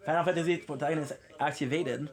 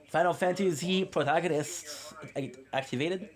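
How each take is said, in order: First: Said in the usual way. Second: "activated" lifted at the end as a question; questioning tune. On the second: Acted. Streamer checking his messy hair look, questioning "activated". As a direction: make "activated" rise, unsure it worked. Asks it, answers no, repeats.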